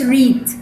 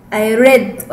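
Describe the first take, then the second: First: "read" with a long ee, like "reed"; present-tense vowel. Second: "read" with a short e, like "red"; past-tense vowel. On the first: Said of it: "ليه ما قلتش read؟". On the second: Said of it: "قلت read ليه؟". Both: Shown as a demonstration.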